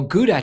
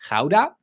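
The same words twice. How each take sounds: First: Gouda is said the familiar English way. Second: Gouda is said the local Dutch way. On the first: "you might know Gouda cheese" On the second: "we pronounce like Gouda"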